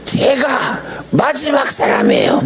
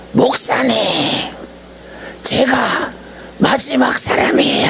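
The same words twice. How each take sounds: First: Much higher and slow, stretching '마지막' in a mock cry; retold emotional cry. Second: Much higher, strained, breathy-edged mock yell of an old principal; retold excited cry. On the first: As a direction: wail '제가 마지막 사람이에요' slowly and high, overcome. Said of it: "막 소리를 지르면서". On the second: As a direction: cry out '마지막' high as if overwhelmed. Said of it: "하면서 소리를 질러요".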